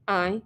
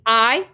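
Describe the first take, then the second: First: Soft, meek echo; reluctant repetition. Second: Firm, isolated word to be copied; commanding prompt. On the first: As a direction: repeat it softly and unwillingly. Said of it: "hated himself, repeated it". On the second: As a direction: dictate it firmly, one word alone. Bully feeds words to repeat. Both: A narrator's reading.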